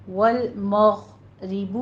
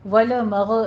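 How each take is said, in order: First: والمغرب with a held heavy غ; slow والمغرب, the غ full and smooth; recited والمغرب; correct tajweed. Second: والمغ with a bouncing qalqala on غ; echoing والمغ; wrong pronunciation. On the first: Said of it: "stop کریں گے آواز کو". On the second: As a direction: say والمغ with a jolt on the غ. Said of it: "والمغ نہیں کہنا ہے". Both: Shown as a demonstration.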